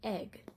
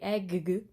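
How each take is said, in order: First: The g sound is pronounced once. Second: The g sound is pronounced twice. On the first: The speaker calls it right. "So we just say egg" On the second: The speaker calls it wrong. "you don't say egg. That's silly"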